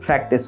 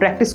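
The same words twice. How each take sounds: First: The first p is aspirated with a puff. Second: The first p is plain, without a puff. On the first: The speaker calls it right. "প্র্যাকটিস করবেন" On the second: The speaker calls it wrong. "প্র্যাকটিস করবেন না"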